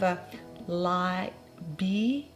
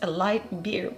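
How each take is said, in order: First: It is said in the customer's unclear accent. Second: It is said in the speaker's plain accent.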